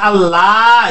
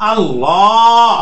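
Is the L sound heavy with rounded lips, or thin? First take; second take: thin; heavy. First: The L is thin, said without rounded lips. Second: The L is heavy, said with rounded lips. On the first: The speaker calls it wrong. "এভাবে না পড়ে" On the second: The speaker calls it right. "এ- এভাবে পড়তে হয়"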